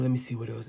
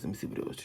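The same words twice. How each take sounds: First: Said in the usual way. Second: Lower, whispered repeat under the breath; whispered to self. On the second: Real, not acted. Reader mutters to herself while searching the cards, whispered. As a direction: drop to a whisper as if thinking.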